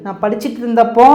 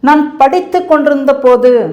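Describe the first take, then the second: First: The words are shortened into casual spoken form. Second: Every syllable is said in full formal form.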